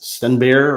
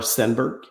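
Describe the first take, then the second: First: It is said the Swedish way, without final g. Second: It is said the English way, ending in g. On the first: "I think it's something like Stenbear ... there's no G at the end" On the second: "I'm pronouncing it the American way or the English Canadian way"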